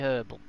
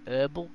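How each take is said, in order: First: It is said in a non-American accent. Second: It is said in an American accent. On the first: "we say herbal" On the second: "Americans say herbal"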